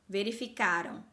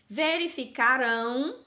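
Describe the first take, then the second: First: The stress is on the second-to-last syllable. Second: The stress is on the last syllable. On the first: The action happened in the past. "no passado ... a sílaba forte é a penúltima" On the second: The action will happen in the future. "no futuro. Olha como está bem forte a pronúncia dessa sílaba"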